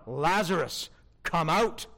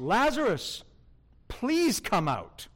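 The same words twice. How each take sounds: First: A firm, commanding order to the dead; commanding call. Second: Polite request. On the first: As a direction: call him out with full authority. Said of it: "No, no, no". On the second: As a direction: ask him nicely, not command. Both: Shown as a demonstration.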